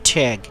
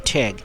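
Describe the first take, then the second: The two takes are said the same way.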